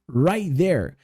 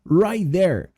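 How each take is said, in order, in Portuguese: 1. O T de 'right' é omitido e ligado. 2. O T de 'right' é omitido e ligado.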